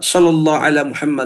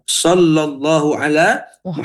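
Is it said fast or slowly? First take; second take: fast; slowly. First: It is said fast. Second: It is said slowly.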